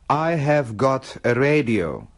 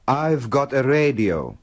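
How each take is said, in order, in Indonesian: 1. Kata 'have' diucapkan secara penuh. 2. Kata 'have' disingkat menyatu dengan 'I'. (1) "Have got" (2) "dalam percakapan sehari-hari, kedua kata itu diperpendek menjadi"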